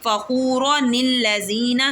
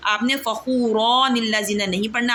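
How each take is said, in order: First: फ़ख़ूरनिल लज़ीना said slowly with only a short ज़बर; demonstrating the right, short vowel in फ़ख़ूरनिल; correct reading. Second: फ़ख़ूरनिल with the ू stretched long; the wrong way, dragging the vowel; demonstrating the mistake of stretching फ़ख़ूरनिल; wrong reading. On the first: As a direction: recite it short and clean. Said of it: "सिर्फ ज़बर पढ़नी है". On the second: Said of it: "खींच कर नहीं पढ़ना". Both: Shown as a demonstration.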